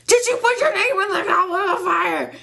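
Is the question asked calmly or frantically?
frantically. The question is asked in a frantic voice.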